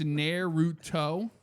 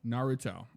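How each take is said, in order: First: "Naruto" as a slow question with a hard T; tentative, spaced-out Naruto, "nair" first, "toe" last; attempted Naruto. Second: "Naruto" with open "nar" and clear "toe"; corrected Naruto. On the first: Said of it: "so it's Naruto?". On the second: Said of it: "by syllable". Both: Shown as a demonstration.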